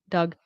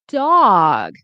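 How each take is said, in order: First: The vowel is short and clipped. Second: The vowel is long and exaggerated. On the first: The speaker calls it wrong. "they'll say the vowels quickly" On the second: The speaker calls it right. "don't be afraid to really say the vowel sounds"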